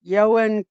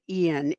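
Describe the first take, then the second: First: The name sounds like 'Yo-an'. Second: The name sounds like 'Ian'. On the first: The speaker calls it right. "It's Ioan" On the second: The speaker calls it wrong. "most people are pronouncing it Ian"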